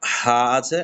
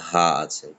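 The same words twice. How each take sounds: First: Light হা from the mouth; an ordinary হা, no throat push; plain হা; plain Arabic small ha. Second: হা breathed from deep in the throat; breathy throat হা; Arabic big ha. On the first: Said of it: "একটা হা আছে". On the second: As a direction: push the air of হা from the throat. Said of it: "এই যে বড় হা". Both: Shown as a demonstration.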